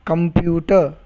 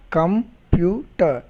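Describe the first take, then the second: First: Said in the usual way. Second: "Computer" slowly split com, pu, ter; syllable by syllable. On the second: Shown as a demonstration. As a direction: pause between the three syllables of "Computer". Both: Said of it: "Observe my pronunciation".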